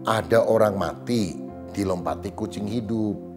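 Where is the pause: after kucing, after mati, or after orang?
after mati. A pause falls after the word mati. A corpse was jumped over by a living cat. "Jadi ada mayat dilompati kucing lah"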